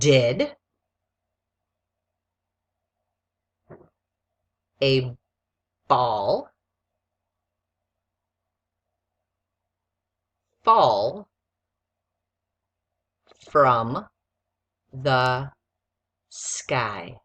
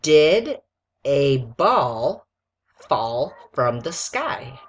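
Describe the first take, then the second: First: It is said slowly. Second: It is said at normal speed.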